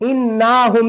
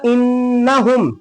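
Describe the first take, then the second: First: The vowel after the double n is drawn out. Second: The vowel after the double n is short. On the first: The speaker calls it wrong. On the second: The speaker calls it right.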